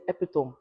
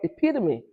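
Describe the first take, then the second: First: The word is said the Nigerian way. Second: The word is said the American way. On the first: "In Nigeria, we say epitome" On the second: "In America, it's called epitome"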